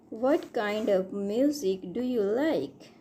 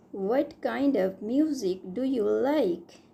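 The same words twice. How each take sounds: The two takes are said the same way.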